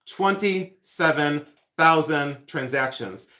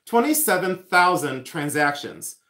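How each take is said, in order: First: "Twenty-seven thousand transactions" drawn out, word by word; slow emphatic repeat. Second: Said in the usual way. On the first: Real, not acted. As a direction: spell out the weight of each word, slowly.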